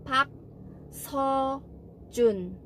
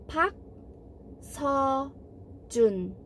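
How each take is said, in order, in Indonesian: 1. Suku kata tengah diucapkan seperti 'so'. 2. Suku kata tengah diucapkan seperti 'so'.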